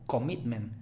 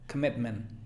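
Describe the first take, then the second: First: The first vowel is a full O sound. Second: The first vowel is a soft schwa. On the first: The speaker calls it wrong. "No digas O" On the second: The speaker calls it right. "sino k"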